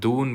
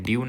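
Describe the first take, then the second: First: The word begins with a plain 'doo' sound. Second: The word begins with a 'dyoo' sound. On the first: The speaker calls it right. "ये दून्स होगा" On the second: The speaker calls it wrong. "ड्यून नहीं होगा"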